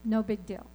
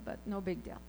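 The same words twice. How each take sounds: First: Said in the usual way. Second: Dropped much softer, a wry shrug; quiet wry repeat. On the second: Shown as a demonstration. Speaker shrugging off the surgery, softly. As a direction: throw it away softly.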